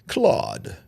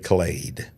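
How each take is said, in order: First: The vowel is an open 'ah' sound. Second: The vowel is an 'ay' sound. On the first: "there's a possibility that it could be Claude" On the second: "down here in Alabama, we say Clade"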